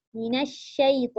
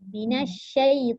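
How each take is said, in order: No difference in how they are said.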